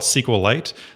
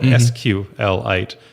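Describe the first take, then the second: First: The name begins with a consonant sound. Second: The name begins with a vowel sound. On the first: "then you would say a SQLite database" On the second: "you'd call it an SQLite database"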